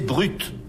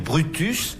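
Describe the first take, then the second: First: The name ends without its final syllable. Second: The name ends with a sounded final syllable. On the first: "on disait Brut ... à la française" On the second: "Au lieu de dire Brutus"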